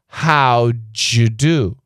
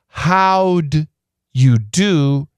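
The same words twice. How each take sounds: First: The d and y blend into a j sound. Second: The d and y stay as separate sounds.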